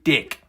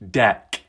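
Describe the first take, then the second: First: The vowel is raised, sounding almost like 'dick'. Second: The vowel is an open 'e', as in 'deck'. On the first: "try and pronounce it properly" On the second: "as for anyone else"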